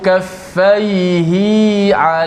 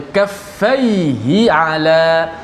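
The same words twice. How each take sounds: First: The vowel of 'hi' is lengthened. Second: The vowel of 'hi' is short. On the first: The speaker calls it wrong. "dia memanjangkan seperti mana uh, dua harakat" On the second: The speaker calls it right. "Kita kena baca kaffaihi ala"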